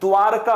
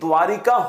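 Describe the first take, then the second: First: No vowel follows 'dwaar'. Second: An extra 'i' vowel follows 'dwaar'. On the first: The speaker calls it right. "द्वारका होता है" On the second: The speaker calls it wrong. "लेकिन द्वारिका होता नहीं है"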